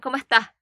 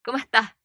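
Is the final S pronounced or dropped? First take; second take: dropped; dropped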